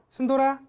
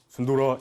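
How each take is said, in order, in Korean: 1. 순돌아 이름을 높고 밝은 목소리로 불러요. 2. 순돌아 이름을 낮은 목소리로 불러요. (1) "조금 여자 같은 목소리로" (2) "이런 낮은 음은 공격적인 소리예요"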